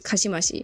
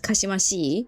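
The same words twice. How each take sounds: First: The word ends with a short i sound. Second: The word ends with a long i sound. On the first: The speaker calls it wrong. "the way people pronounce it is Kashimashi, which is kind of inherently wrong" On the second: The speaker calls it right. "If you ever learn Japanese, it's Kashimashi, so it's an E adjective"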